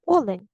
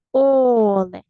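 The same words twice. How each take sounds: First: Said in the usual way. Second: Олень with a loud, very long first vowel; stress on О. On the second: Shown as a demonstration. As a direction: stretch the О in Олень loudly. (Олень з гучним протяжним О) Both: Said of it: "Поставте наголос".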